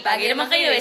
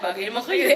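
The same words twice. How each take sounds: First: It is said in a happy tone. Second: It is said in a sad tone.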